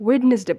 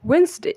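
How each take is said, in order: First: "ওয়েডনেসডে" as three syllables, "wed-nes-de"; wrong pronunciation. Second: "ওয়েন্সডে" as high "WENS-dey"; two syllables in "ওয়েন্সডে", silent first d; correct pronunciation. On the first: Teacher quoting what we will stop saying, everyday mispronunciation. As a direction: sound every part of "ওয়েডনেসডে", d included. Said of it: "ওয়েডনেসডে বলবো না". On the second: Teacher giving the replacement, careful correct pronunciation. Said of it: "এটাকে বলবো". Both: Shown as a demonstration.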